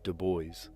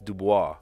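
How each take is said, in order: First: The name is said with American English pronunciation. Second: The name is said with French pronunciation.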